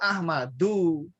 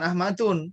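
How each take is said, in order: First: The word ends with a vowel. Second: The word ends with an n sound. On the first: The speaker calls it right. "Ismuhu Ahmadu" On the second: The speaker calls it wrong. "Tidak boleh tanwin, ah, bukan Ahmadun"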